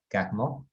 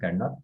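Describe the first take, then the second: First: The name is said with a French pronunciation. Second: The name is said with a local Spanish pronunciation. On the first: This is the original pronunciation. "se pronuncia en realidad Carnot" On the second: This is how the name is known locally. "digamos Carnot porque así es como se conoce aquí"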